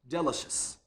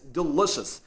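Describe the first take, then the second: First: The second syllable is not stressed. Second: The second syllable is stressed. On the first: The speaker calls it wrong. "I pronounced the word delicious this way" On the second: The speaker calls it right. "I didn't stress the second syllable like this"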